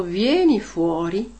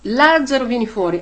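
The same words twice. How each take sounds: First: Said in the usual way. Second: Loud, slowed call with the name up front; commanding call. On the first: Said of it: "Se avesse solo detto". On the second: Retold or imitated. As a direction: call Lazzaro out of the tomb with authority. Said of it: "Gesù ha detto".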